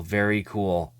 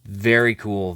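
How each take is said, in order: First: Whispered very cool. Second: Said in the usual way. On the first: Shown as a demonstration. Collector savoring the card, whispered. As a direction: breathe very cool softly.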